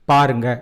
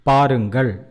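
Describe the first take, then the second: First: The final consonant is dropped from the ending. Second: The word ends with a full final syllable. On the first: It is casual everyday speech. "that becomes பாருங்க in spoken Tamil" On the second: It is formal speech. "to tell with respect in formal Tamil"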